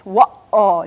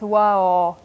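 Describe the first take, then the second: First: A brief catch in the voice splits the word. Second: The word flows smoothly with no break inside. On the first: The speaker calls it right. "It's got that little interruption or stop or waiting in the middle of it" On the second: The speaker calls it wrong. "very smooth"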